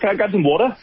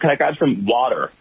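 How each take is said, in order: First: It is said in the speaker's native accent. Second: It is said in an American accent. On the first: The local listeners did not understand it. The speaker calls it wrong. "sometimes when I ask for water, people don't know what I'm saying" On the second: The local listeners understood it. The speaker calls it right. "I attempt an American accent"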